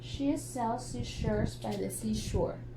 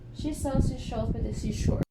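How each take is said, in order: First: It is said at a normal, unhurried pace. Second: It is said at a noticeably faster pace. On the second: "let's say it faster"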